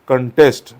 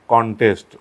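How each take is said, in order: First: The stress is on the second syllable. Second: The stress is on the first syllable. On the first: It is used as a verb. "As a verb जर तुम्ही हा शब्द वापरत असाल" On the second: It is used as a noun. "Noun म्हणून वापरत असाल"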